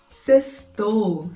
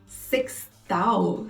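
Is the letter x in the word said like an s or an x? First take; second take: s; x. First: The x is said with an s sound. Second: The x is said with an x sound. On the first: The speaker calls it right. "nesse caso o X soa S" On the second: The speaker calls it wrong. "Ele pronunciou X com som de X"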